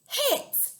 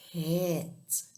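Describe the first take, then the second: First: The word is said with excited, lively energy. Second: The word is said very slowly and drawn out. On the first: "Let's do it in an excited voice" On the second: "Let's do it in slow-mo"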